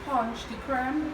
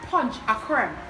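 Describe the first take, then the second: First: The middle word is said as 'de'. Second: The middle word is said as 'a'.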